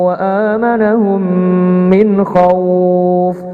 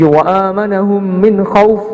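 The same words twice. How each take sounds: First: The final syllable is held long. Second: The final syllable is cut short. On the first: The speaker calls it right. "min khauf kita panjangkan" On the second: The speaker calls it wrong. "tidak pendek seperti itu juga"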